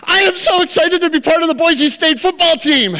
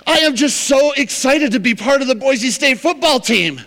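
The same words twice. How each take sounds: First: High, loud, beaming delivery; thrilled rookie. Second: High, eager gushing; eager rookie. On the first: Rookie answers irritated coach, high and loud, gushing. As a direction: overflow with joy at making the team. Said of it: "He goes". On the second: Rookie first tells coach he's excited, high gushing. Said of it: "And he's like". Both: Retold or imitated.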